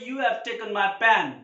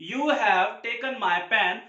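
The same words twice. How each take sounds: First: "you have" run together, h dropped; stylish contraction. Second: Said in the usual way. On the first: Shown as a demonstration. Teacher shows learners the styled version, "you have" contracted. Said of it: "इसको style में बोल सकते हैं". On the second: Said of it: "अगर आपको बोलना है".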